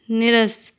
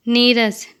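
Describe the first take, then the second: First: Short i in "निरस"; incorrect pronunciation. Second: Long ee in "नीरस"; correct pronunciation. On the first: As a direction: say "निरस" wrongly with a brief first vowel. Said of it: "अशुद्ध शब्द". ("निरस" का अशुद्ध उच्चारण, छोटी इ) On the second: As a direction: say "नीरस" with the first vowel held long. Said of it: "शुद्ध शब्द". ("नीरस" का शुद्ध उच्चारण, लंबी ई) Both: Shown as a demonstration.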